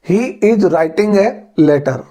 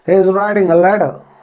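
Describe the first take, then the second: First: The t in letter is full and clear. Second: The t in letter is soft, nearly dropped. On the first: "ये तो हुआ Indian English में।" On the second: "British accent में इस sentence को किस प्रकार से बोलेंगे?"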